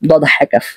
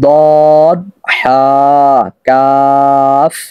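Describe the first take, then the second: First: It is said in a light, soft voice. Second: It is said in a strong, heavy voice. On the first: The speaker calls it wrong. "একটু মেয়েদের মতো বলেন যদি" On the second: The speaker calls it right. "একটু বলিষ্ঠ কণ্ঠে বলতে হবে"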